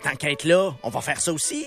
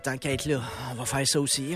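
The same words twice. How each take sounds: First: The tone is light and cheerful. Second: The tone is weary and exasperated. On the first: Extra activities are a welcome bonus. "Quand t'es en voyage et que tu cherches des activités" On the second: More work is piling up unavoidably. "Quand tu rénoves, tu dis la même phrase, mais sur un autre ton"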